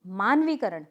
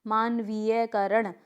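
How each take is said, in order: First: मानवीकरण as maan-vee-karan, no "ya"; correct pronunciation. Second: मानवीयकरण slowly, with an extra "ya" after "vee"; incorrect pronunciation. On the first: Teacher giving the correct word, मानवीकरण without "ya". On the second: Teacher showing students a wrong word, मानवीयकरण with extra "ya". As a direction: say मानवीयकरण as maan-vee-ya-karan. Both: Shown as a demonstration. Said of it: "क्या होता है शुद्ध".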